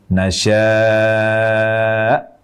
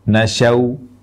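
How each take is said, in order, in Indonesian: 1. Vokal panjang yang ditarik, berakhir dengan hamzah. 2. Vokal pertama pendek, berakhir dengan bunyi w. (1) "Huruf terakhirnya hamzah bersukun" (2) "Memendekkan harokat fathah huruf shin, lalu waqaf di akhir katanya dengan mengubah huruf hamzah menjadi huruf waw"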